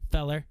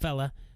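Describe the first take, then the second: First: The name ends with a clear r sound. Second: The name ends in an open vowel, no r. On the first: The speaker calls it right. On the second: The speaker calls it wrong.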